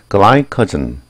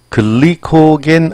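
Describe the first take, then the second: First: It is said with English pronunciation. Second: It is said with Korean-style loanword pronunciation. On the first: The speaker calls it right. "영어 발음은 glycogen" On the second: The speaker calls it wrong. "이거 우리 한국식 표현 발음 표현이고요"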